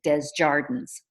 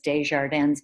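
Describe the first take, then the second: First: The name is said with English pronunciation. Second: The name is said with French pronunciation.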